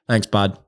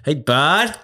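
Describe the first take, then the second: First: It is said in an irritating, condescending tone. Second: It is said in a warm, uplifting tone.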